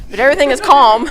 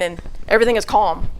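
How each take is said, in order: First: "calm" said higher and louder with a rising tune; stress on calm. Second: Said in the usual way. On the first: Retold or imitated. Telling the church the road was calm, "calm" raised and louder. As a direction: lift "calm" at the end, insisting on it. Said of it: "I'm not, but". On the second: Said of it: "I'm not, but everything is calm".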